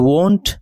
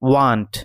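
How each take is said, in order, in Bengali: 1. এটি ব্রিটিশ উচ্চারণে বলা হয়েছে। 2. এটি আমেরিকান উচ্চারণে বলা হয়েছে। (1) "এটি হচ্ছে ব্রিটিশ" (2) "এটি আমেরিকান প্রনাউন্সিয়েশন"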